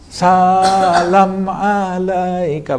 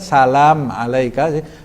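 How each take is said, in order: First: The first vowel of salam is drawn out long. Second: The first vowel of salam is kept short. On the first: "salamnya jadi salam alaika" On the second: "sinnya tidak panjang itu"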